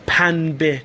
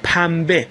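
First: The consonant before the b is n. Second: The consonant before the b is m. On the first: "اگه نون تلفظ کنیم سنگین تر" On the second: "به جای نون میم تلفظ میکنیم"

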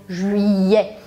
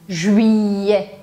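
No difference in how they are said.

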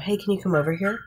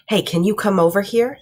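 First: It is said in a neutral, casual tone. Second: It is said in a stern, ominous tone.

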